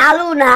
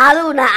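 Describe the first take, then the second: The two takes are said the same way.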